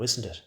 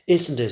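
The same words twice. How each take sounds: First: Said in the usual way. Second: Loud, higher pressing question; forceful repeated demand; insistent. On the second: A narrator's reading. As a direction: press hard for an answer, voice raised. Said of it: "he insists".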